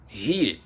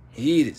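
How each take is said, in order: First: Said in the usual way. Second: "Heated." said again, higher and louder; emphatic repeat. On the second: Shown as a demonstration. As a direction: punch "Heated." the second time.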